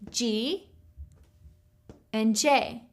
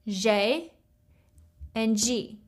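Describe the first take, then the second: First: The letters are named with English letter sounds. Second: The letters are named with French letter sounds. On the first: "in English, we say G and J" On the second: "in French, this is J and G"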